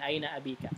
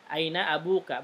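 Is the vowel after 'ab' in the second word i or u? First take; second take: i; u. First: The second word is said with i after 'ab'. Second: The second word is said with u after 'ab'. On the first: The speaker calls it wrong. "bukan aina abika, salah" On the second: The speaker calls it right. "Harusnya aina abuka"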